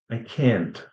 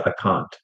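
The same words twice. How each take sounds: First: "can't" with an American a, as in cat. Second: "can't" with a long British ah. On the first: Teacher demonstrating for students how Americans say it, American "can't". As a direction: say "can't" with a front American vowel. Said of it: "if you're an American". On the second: Teacher demonstrating for students the British way, long-ah "can't". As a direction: open back vowel in "can't", British style. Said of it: "If it's British, maybe you can say". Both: Shown as a demonstration.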